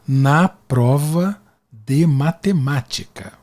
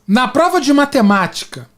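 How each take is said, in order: First: It is said slowly and deliberately. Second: It is said at normal speed.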